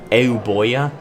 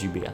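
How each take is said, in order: First: The name follows a Latin-style reading of the spelling. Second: The name follows the modern English pronunciation. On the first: The speaker calls it wrong. "if you're going by Latin pronunciation, it looks like it would be Euboea" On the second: The speaker calls it right. "the modern day English pronunciation is Eubea"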